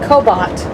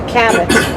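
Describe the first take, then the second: First: The first syllable does not sound like cab. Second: The first syllable sounds like cab. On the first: The speaker calls it wrong. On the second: The speaker calls it right. "What do you take when you take a taxi?"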